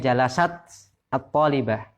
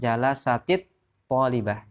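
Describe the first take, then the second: First: The first word ends in a bare t sound. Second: The first word ends in -ti, linking onward. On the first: The speaker calls it wrong. "Aslinya jalasat at-talibah" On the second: The speaker calls it right. "sukunnya cara bacanya adalah menjadi kasroh"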